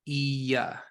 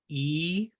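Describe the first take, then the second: First: A longer vowel ending in a y glide. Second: A short vowel with no glide. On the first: "has a little bit of a y sound at the end of it" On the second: "xirik is a shorter version"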